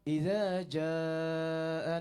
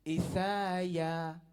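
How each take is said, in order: First: It has a 'dz' sound and two separate words. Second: It has an 's' sound, blended into one word. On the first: "kita sebut" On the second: "Dia takkan sebut idza jaa"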